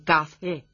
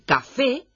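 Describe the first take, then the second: First: The second syllable is swallowed and barely heard. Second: Both syllables are clearly articulated. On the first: The speaker calls it wrong. "Se han tragado la segunda sílaba" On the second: The speaker calls it right. "en lugar de decir café"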